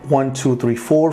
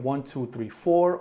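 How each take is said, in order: First: The voice is recorded at a higher input level. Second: The voice is recorded at a lower input level. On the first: "On the Sony microphone" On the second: "The microphone input ... is set to low"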